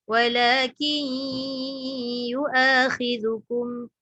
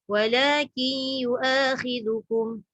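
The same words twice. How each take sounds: First: The nasal hum is held for longer. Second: The nasal hum is held only briefly. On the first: The speaker calls it right. "baru dia cukup" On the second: The speaker calls it wrong. "Dengung ada dah. Tapi tak cukup kadar dia tu"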